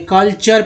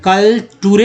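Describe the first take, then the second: First: The middle is said with a 'ch' sound. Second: The middle is said with a plain 't' sound. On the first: The speaker calls it right. "कल्चर पढ़ेंगे" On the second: The speaker calls it wrong. "कल टूरे नहीं पढ़ेंगे"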